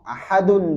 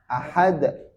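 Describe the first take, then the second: First: The word ends with a full vowel ending. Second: The word ends on a stopped, bouncing consonant.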